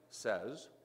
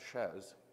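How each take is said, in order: First: It is said as one word, 'says'. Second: It is said as one word, 'shez'. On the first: "there are people who pronounce that as a word" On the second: "their X has a different value, so they pronounce it"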